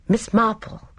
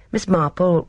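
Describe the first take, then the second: First: Higher, lightly theatrical address; unexpectedly dramatic. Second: Said in the usual way. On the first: A narrator's reading. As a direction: say the name like an amateur actor's first line. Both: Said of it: "His voice had an unexpectedly dramatic quality".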